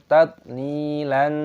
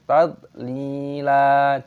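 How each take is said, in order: First: The word ends with an n sound. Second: The word ends on a long vowel. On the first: The speaker calls it wrong. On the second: The speaker calls it right. "dibaca panjang"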